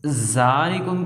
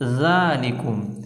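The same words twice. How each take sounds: First: The z sound is hard and thin. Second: The z sound is soft and thin. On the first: The speaker calls it wrong. "ज़ा पढ़ दिया ज़ाल की जगह" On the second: The speaker calls it right. "हमने इसको पढ़ना है ज़ालिकुम"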